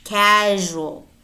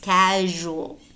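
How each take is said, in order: The two takes are said the same way.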